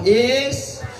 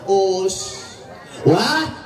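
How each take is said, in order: First: The word begins with an 'i' vowel. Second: The word begins with an 'u' vowel. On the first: "dibaca kasroh" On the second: "dibaca domah"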